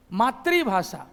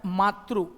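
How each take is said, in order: First: मातृभाषा said matribhasha, i after tr; Bihari pronunciation. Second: मातृ said slowly as matru; slow careful मातृ with ru ending; correct pronunciation. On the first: Teacher imitating the Bihari habit, matri-bhasha. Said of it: "This is not मातृभाषा". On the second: Teacher showing the correct form, slow matru. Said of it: "इसका जो pronunciation होता है". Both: Shown as a demonstration.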